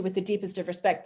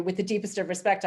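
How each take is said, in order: First: Earnest Canadian respect. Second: "With the deepest of respect" said politely, with a rising end; polite words, cross underneath; veiled British annoyance. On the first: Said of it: "if a Canadian says to you". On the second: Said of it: "I'm saying to you". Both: Shown as a demonstration.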